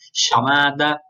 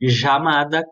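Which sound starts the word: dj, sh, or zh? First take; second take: sh; zh. First: The word begins with an sh sound. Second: The word begins with a soft zh sound. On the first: "quase como um C H" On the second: "como se fosse um J"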